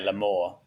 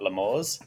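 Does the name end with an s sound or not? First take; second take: no s; s. First: The name ends without an s sound. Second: The name ends with an s sound. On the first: The speaker calls it right. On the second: The speaker calls it wrong. "not L'Amour's"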